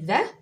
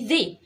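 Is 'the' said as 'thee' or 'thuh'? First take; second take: thuh; thee. First: It ends in a short 'uh' vowel. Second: It ends in a long 'ee' vowel. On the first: It is used before a word starting with a consonant. "النطق الاولاني ذا" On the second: It is used before a word starting with a vowel. "النطق التاني ذي"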